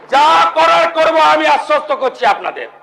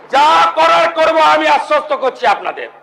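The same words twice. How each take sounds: No difference in how they are said.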